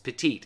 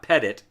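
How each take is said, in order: First: The word ends with a clear final t sound. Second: The word ends without a clear final t sound. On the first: The speaker calls it right. "it's petite, as in small" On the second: The speaker calls it wrong. "It's not petit"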